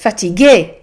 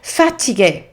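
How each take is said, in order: First: The stress falls on the last syllable. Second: The stress falls before the last syllable. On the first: The speaker calls it right. "actually it's fatigué, and the emphasis is at the end" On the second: The speaker calls it wrong. "our English brains want to say fatigué"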